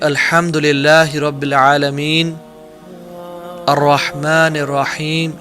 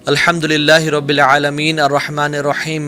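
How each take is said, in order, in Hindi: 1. आयतों के बीच रुकावट होती है। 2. आयतें बिना किसी रुकावट के एक साथ चलती हैं। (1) "ही यूज्ड टू टेक पॉजेज" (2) "ऐसे नहीं पढ़ते"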